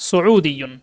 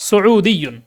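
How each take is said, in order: Both takes have the same delivery.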